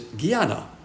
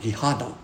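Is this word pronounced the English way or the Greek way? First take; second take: English; Greek. First: It is pronounced the usual English way. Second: It is pronounced the Greek way.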